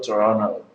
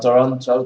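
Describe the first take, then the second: First: The t after the n is dropped. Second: The t after the n is clearly pronounced. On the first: "in American English, when you have this combination, the T is not pronounced" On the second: "instead of"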